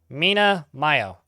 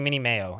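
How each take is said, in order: First: The first word ends in an 'ah' sound. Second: The first word ends in an 'ee' sound. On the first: The speaker calls it right. "I know I've said this correctly once or twice before" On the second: The speaker calls it wrong. "I always want to call you Mini Mayo, and that's just nope"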